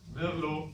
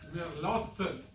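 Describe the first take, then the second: First: The final t is silent. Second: The final t is clearly sounded. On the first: This is how the name is actually said. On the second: This is how the name is spelled.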